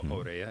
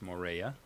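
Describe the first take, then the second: First: The name is said the local Tahitian way. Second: The name is said in a plain English way.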